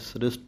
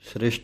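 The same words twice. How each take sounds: First: The s sounds are plain, without a sh. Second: The s sounds are pronounced like sh. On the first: The speaker calls it right. "ਹੁਣ ਸੱਸੇ ਦੋਵੇਂ ਪੈਰ ਵਿੱਚ ਬਿੰਦੀ ਨਹੀਂ ਲਾਉਣੀ" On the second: The speaker calls it wrong. "ਸ੍ਰਿਸ਼ਟ ਨਹੀਂ ਕਹਿ ਜਾਣਾ"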